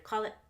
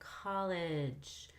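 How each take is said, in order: First: The word stops before the final J sound. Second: The final J sound is fully heard. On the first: The speaker calls it wrong. "he stopped before we got to the J, so we never heard it" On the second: The speaker calls it right. "instead of college"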